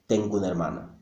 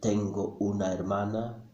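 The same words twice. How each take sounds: First: The final and initial vowels are dropped and linked. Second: Every vowel is kept and pronounced separately. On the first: This is how natives speak at speed. The speaker calls it right. "Most Spanish speakers, when speaking fast, will say" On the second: This is not how natives speak at speed. The speaker calls it wrong. "No, no, ... don't think so"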